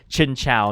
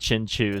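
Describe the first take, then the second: First: The last syllable sounds like 'chow'. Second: The last syllable sounds like 'choo'. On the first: The speaker calls it right. "that's how it's pronounced. It's Chin Chow" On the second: The speaker calls it wrong. "not Chin Chu"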